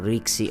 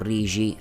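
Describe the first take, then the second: First: The name is said without the Sardinian pronunciation. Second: The name is said with the Sardinian pronunciation.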